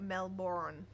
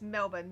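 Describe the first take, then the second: First: "Melbourne" drawn out slowly as mel-BORN; outsider's mispronunciation. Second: "Melbourne" with a reduced ending, MEL-bun; local pronunciation. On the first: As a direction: give "Melbourne" a full, long "born" ending. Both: Shown as a demonstration. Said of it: "it's Melbourne, not Melbourne".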